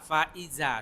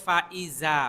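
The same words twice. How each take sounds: No difference in how they are said.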